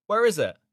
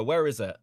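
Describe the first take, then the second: First: Higher, louder sharp demand; exasperated insistent repeat. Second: Said in the usual way. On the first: Real, not acted. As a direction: press him harder for it. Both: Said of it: "the pictures you posted".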